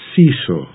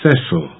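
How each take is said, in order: First: The name is said the General American way. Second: The name is said the usual non-American way. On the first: "in general American English, it's pronounced Cecil" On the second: "The usual way of pronouncing this name is Cecil"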